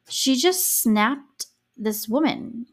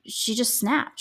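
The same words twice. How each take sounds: First: Slow emphatic. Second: Said in the usual way. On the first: Real, not acted. Emphatic verdict on Susan.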